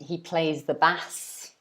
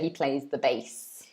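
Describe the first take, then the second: First: Bass has an open A vowel. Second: Bass sounds like the word base. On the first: He plays a fish. The speaker calls it wrong. "because that would mean he plays a fish" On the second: He plays the musical instrument. The speaker calls it right. "you would say he plays the bass"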